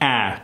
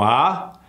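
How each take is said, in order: First: The vowel is bright, forward and nasal. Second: The vowel is an open, Spanish-style ah. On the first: "to the American target number one"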